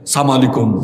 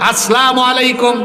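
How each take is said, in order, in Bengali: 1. শুভেচ্ছাটি সংক্ষেপে বলা হয়, প্রথম as- অংশটি বাদ দিয়ে। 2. শুভেচ্ছাটি পূর্ণভাবে বলা হয়, as- দিয়ে শুরু।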